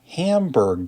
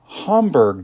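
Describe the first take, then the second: First: Hamburg is pronounced the English way. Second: Hamburg is pronounced the German way. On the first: The speaker calls it wrong. "not Hamburg, Germany, which is what I said in the last episode" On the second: The speaker calls it right. "they're from Hamburg, Germany"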